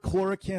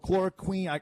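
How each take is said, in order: First: The last syllable sounds like 'kin'. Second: The last syllable sounds like 'queen'. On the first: "is it kin" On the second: "or queen?"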